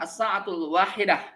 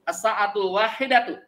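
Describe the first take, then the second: First: The last word ends with a short 'h' sound. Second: The last word ends with a full 'tu' syllable. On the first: "Kalau mau diwakafkan" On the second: "Kalau tadi dibacanya tuk tuk"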